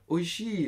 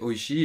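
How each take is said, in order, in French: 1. Le i est accentué et le mot sonne intensifié. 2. Le mot est prononcé simplement, sans emphase supplémentaire. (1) "tu vas juste faire oishi" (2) "tu vas dire oishi"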